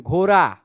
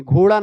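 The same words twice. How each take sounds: First: घोड़ा with the ड़ softened to a tapped r, "ghora"; Bihari pronunciation. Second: Said in the usual way. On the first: Shown as a demonstration. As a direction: say घोड़ा as ghora, a light r tap in the middle. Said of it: "Bihar में जाएंगे तो घोड़ा को घोड़ा नहीं कहेंगे". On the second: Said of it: "घोड़ा को घोड़ा नहीं कहेंगे".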